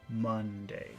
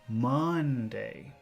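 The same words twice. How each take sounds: First: The word is said plainly, without extra force. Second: The word is said with strong, forceful emphasis. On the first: "normal Monday is" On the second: "focus Monday is"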